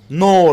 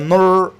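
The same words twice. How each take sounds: First: The vowel is full and clearly pronounced. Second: The vowel is reduced and weak.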